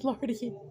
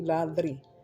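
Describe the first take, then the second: First: The r sound comes before the d. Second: The r sound comes after the d. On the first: A small child says the name. The speaker calls it wrong. "but he would say Lardy" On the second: The name is said as intended. The speaker calls it right. "once he started saying it correctly"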